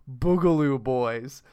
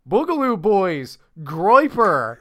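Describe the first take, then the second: First: Put-on slow, dead-serious "Boogaloo Boys", each word drawn out; mock earnest. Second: Loud, hammed-up news-anchor alarm on "Boogaloo Boys"; mock newscaster. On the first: Mocking earnest TV reporters, slow and solemn. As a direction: say "Boogaloo Boys" with a straight-faced solemn newsreader gravity. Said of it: "people in earnest say". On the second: Parodying TV news to his friend, loud mock alarm. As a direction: announce "Boogaloo Boys" like a grave TV headline, overplayed. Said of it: "and hear things like".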